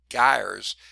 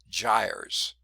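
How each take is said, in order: First: The word begins with a hard G sound. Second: The word begins with a J sound. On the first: "It looks like it might be gyres" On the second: "I think they probably pronounce it gyres. I'm not sure, like gyroscope"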